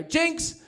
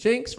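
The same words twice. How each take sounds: First: High, rising playful call; calling jinx. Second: Said in the usual way. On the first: Retold or imitated. Boyfriend calls jinx on his girlfriend, high-pitched. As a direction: pipe it up like winning a word game.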